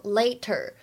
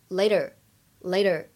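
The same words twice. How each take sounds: First: The t is a clear, crisp t sound. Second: The t is softened into a voiced flap. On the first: The speaker calls it wrong. "这个呢在美式英语当中不能简单的读成later" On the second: The speaker calls it right. "它呢其实有一个美音的浊化的现象，所以呢你们经常听到美国人读的是later"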